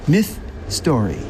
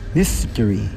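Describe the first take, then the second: First: It is said slowly, as two separate words. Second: It is said fast, run together as one word. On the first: "Say it with me" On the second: "I say it fast"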